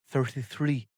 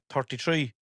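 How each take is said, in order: First: It is said with a standard accent. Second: It is said with an Irish accent.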